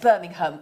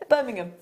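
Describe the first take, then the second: First: The h sound in the word is pronounced. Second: The h sound in the word is dropped. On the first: Someone from outside the city said it. The speaker calls it wrong. "My friend said to me the other day" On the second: A local from the city said it. The speaker calls it right. "we don't say the H"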